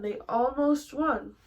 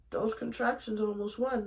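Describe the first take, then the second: First: "almost" drawn out, higher and louder; slow down and lean hard on "almost"; stress on almost. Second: Said in the usual way. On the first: Real, not acted. Repeats with drawn-out emphasis.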